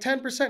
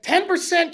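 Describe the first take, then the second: First: It is said at a quiet, ordinary volume. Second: It is said loudly and forcefully.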